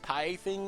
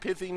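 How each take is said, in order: First: The first syllable has a long 'eye' sound. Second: The first syllable has a short 'i' sound. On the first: The speaker calls it wrong. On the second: The speaker calls it right.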